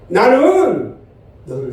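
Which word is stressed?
나는. The stress is on the word 나는. It is I, not someone else, who loves. "나는의 강조점을 두고 한번 읽어볼게요"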